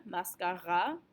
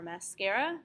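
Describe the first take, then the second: First: Mascara with open "ah" vowels and French R, rising; French pronunciation. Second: Mascara the English way, "mas-KAIR-uh", rising; English pronunciation. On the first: Teacher listing the hardest cognates, French pronunciation of mascara. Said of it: "main focus is on that vowel". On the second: Teacher listing the hardest cognates, English pronunciation of mascara. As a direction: say mascara with English vowels, as a list item. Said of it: "three hardest ones in this unit". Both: Shown as a demonstration.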